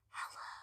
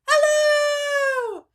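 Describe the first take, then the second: First: It is said very quietly. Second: It is said very loudly.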